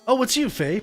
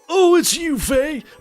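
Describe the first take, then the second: First: It is said in the speaker's normal voice. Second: It is said in a put-on old man voice. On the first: The speaker calls it wrong. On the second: The speaker calls it right.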